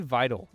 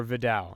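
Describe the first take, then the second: First: "Vidal" as VY-dul, first syllable stressed; first pronunciation guess. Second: "Vidal" as vuh-DAL, second syllable stressed; alternative pronunciation guess. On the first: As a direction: make "Vidal" sound like "idle" with a V. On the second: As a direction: put the weight on the end of "Vidal", vuh-DAL. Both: Real, not acted. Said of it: "not sure how you pronounce it".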